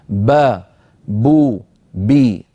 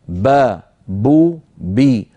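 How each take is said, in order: No difference in how they are said.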